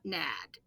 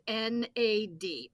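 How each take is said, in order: First: It is said as one single word. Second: It is said as three separate letters. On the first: The speaker calls it wrong. "It is not" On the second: The speaker calls it right. "It is always"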